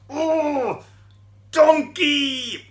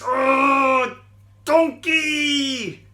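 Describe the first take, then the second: First: Put-on high, loud angry yell repeated for the children; shouting demo. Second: High, loud angry yell at the donkey; angry shout. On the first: Shown as a demonstration. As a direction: shout it again for them to copy. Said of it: "Do you want to try that with me?". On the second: Acted. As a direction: bellow it out in a rage. Balaam angrily shouts at donkey.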